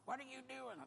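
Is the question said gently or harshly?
harshly. The question sounds harsh and alarmed. "But she didn't say it like that"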